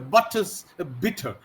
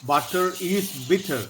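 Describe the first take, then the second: First: The word 'is' is contracted onto 'butter'. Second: The word 'is' is said as a separate syllable. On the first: The speaker calls it right. "but she said the butter's bitter" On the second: The speaker calls it wrong. "cannot say butter is bitter"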